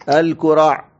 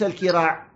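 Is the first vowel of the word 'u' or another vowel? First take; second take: u; other vowel. First: The first syllable has the vowel u. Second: The first syllable has a vowel other than u. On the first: The speaker calls it right. "الكراع بضم الكاف" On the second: The speaker calls it wrong. "وليس الكراع"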